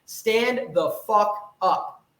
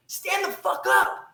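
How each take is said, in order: First: Slow command. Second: High, slow roar of the order; shouted command. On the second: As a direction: yell it. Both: Real, not acted.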